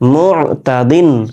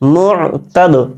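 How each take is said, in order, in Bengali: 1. শব্দটি পূর্ণ '-din' দিয়ে শেষ হয়। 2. শব্দটি ঝাঁকানো, প্রতিধ্বনিত 'd' দিয়ে শেষ হয়। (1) "উচ্চারণ হবে মুতাদিন" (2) "থেমে গেলে ... জজম ধরবো"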